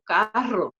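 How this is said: The R is a strong trilled R.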